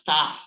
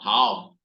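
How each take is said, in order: First: The word ends with an f sound. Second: The word ends with an ow sound. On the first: This is how it is said in Greece. "we actually pronounce that in Greece as taf" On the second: This is how many people say it. "not tau, like many people said"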